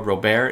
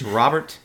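First: The name is said with a French-sounding pronunciation. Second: The name is said without a French-sounding pronunciation. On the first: The speaker calls it wrong. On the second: The speaker calls it right.

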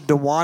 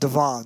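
First: The surname has a w sound in the middle. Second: The surname has a v sound in the middle. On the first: This is how the name was pictured privately. The speaker calls it wrong. "I've been pronouncing it Sacha Dewan in my head all along" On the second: This is how an interviewer at the event said it. The speaker calls it right. "pronounced it Devon, so I'm going to go with Devon"

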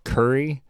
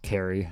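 First: The first syllable sounds like 'cur'. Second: The first syllable sounds like 'care'. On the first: The speaker calls it wrong. "I kept saying the city in North Carolina was Curry" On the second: The speaker calls it right. "it's totally pronounced Carry"

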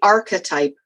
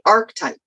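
First: The start sounds like the start of architect. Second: The start does not sound like architect. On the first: "I say archetype, like architect" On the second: "but you say archetype"

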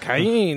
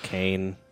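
First: The name has a Spanish-sounding pronunciation. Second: The name has a plain English pronunciation. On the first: The speaker calls it wrong. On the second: This is how the name is really said. The speaker calls it right. "But it's really just Cain"

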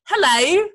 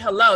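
First: It is said with a British accent. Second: It is said with an American accent. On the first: "You say hello" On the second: "You don't say hello"

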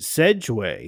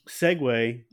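First: The first syllable ends in a soft j sound. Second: The first syllable ends in a hard g sound. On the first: The speaker calls it wrong. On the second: The speaker calls it right.

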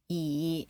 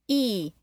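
First: The pitch dips down, then goes up. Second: The pitch goes down. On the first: "E is falling and rising" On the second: "E is falling"

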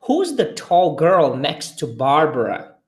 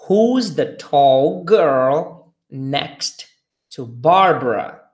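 First: It is said a bit faster. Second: It is said at a normal speed.

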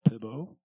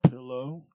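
First: The middle consonant is a 'b' sound. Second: The middle consonant is an 'l' sound. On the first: The speaker calls it wrong. "she says pibbo" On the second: The speaker calls it right. "instead of pillow"

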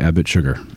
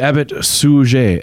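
First: The name sounds like the word 'sugar'. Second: The name does not sound like 'sugar'. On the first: The speaker calls it wrong. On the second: The speaker calls it right.

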